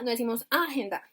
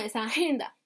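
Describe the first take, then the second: First: The stress is on the first syllable. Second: The stress is on the second syllable. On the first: The speaker calls it wrong. "No es en la primera, inmediatamente en la A" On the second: The speaker calls it right. "es en la segunda"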